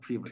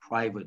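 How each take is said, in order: First: The first vowel is not an 'eye' sound. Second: The first vowel is an 'eye' sound. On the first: The speaker calls it wrong. "not private" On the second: The speaker calls it right. "It's pri I, private"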